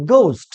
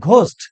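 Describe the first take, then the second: First: গোস্ট with gliding "ou" vowel; correct pronunciation. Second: ঘোস্ট with a short, pure o; wrong pronunciation. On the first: Teacher modelling for students, correct pronunciation. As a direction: round গোস্ট into "goust", falling. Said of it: "সঠিক উচ্চারণ হবে". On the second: Teacher rejecting a common mistake, wrong pronunciation. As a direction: say ঘোস্ট without any glide in the o. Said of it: "ঘোস্ট না". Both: Shown as a demonstration.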